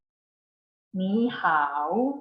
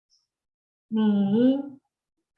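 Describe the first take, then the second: First: 你好 slowly, 你 rising like a second tone, 好 dipping; tone sandhi demo. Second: 你 and 好 spoken apart, each a full third tone; separate third tones. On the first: Teacher to class: slow sandhi example. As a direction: show how 你 rises before 好. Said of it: "they are pronounced like this". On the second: Teacher to class: tones said one by one. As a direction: split 你 and 好 into two dipping tones. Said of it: "doesn't sound like the same when they are together". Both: Shown as a demonstration.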